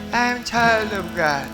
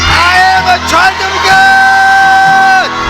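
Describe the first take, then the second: First: It is said weakly, without conviction. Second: It is shouted loudly, with conviction.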